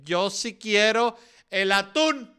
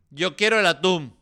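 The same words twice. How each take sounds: First: Higher, slow, drawn-out whiny demand; mock stubborn tuna eater. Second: Higher and louder, stamping the word quiero; mock insistent demand. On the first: A selfish person refusing to give up tuna, slow whiny demand. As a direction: whine it like a spoiled kid who won't give up tuna. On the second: The selfish tuna lover repeats his demand, louder and insistent. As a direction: insist like a spoiled kid. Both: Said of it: "Va a haber gente que".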